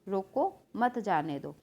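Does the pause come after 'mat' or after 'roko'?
after roko. There is a pause right after roko. Stop him; do not let him go. "इसका मतलब क्या हो गया कि उसको जाने मत दो"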